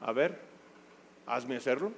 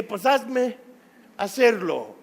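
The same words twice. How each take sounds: First: Muttered softer, a lazy dare; quiet sulky challenge; teen daring his mom under his breath; defiant teen backtalk. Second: Defiant dare. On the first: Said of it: "Rezongó". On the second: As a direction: throw the dare back at him. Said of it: "Yo le dije". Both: Retold or imitated.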